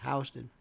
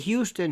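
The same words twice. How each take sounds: First: It is said the local New York way. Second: It is said the non-local way. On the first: This is how locals say the name. The speaker calls it right. "It's Houston" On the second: This is how outsiders say the name. The speaker calls it wrong. "Never say Houston here"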